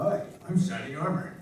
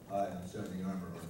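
First: Shining Armor's voice, acted with real emotion. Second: Shining Armor's voice, said flatly without emotion.

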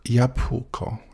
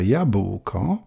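First: The ł sound is a voiceless puff. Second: The ł sound is fully voiced. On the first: "z tego ł robi się coś w rodzaju dmuchnięcia tylko" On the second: "jednomyślnie określana jest jako hiperpoprawna"

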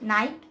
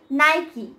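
First: The word ends without an 'ee' sound. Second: The word ends with an 'ee' sound. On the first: The speaker calls it wrong. "but it is not Nike" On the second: The speaker calls it right. "It's Nike"

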